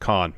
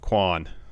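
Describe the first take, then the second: First: It begins with a plain k sound. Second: It begins with a kw sound. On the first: The speaker calls it right. "but it's Con" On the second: The speaker calls it wrong. "I had the U before the A"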